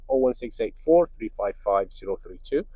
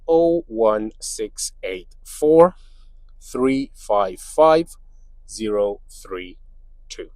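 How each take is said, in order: First: The number is read out quickly. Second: The number is read out slowly. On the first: The speaker calls it wrong. "I'm saying it too fast" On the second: The speaker calls it right. "let me say that again slower"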